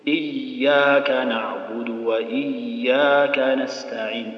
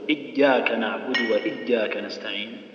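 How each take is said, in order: First: The voice keeps flowing through the ain sound. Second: The voice is held back on the ain sound. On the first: The speaker calls it right. "لا خلي الصوت يجري" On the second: The speaker calls it wrong. "بس بعض الناس يبغى يصلي يقول"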